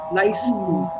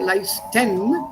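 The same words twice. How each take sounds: First: The final -en ending is merged and reduced. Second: The final -en ending is fully pronounced. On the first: The speaker calls it right. "They merged these at the end" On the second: The speaker calls it wrong. "No, she didn't say leisten"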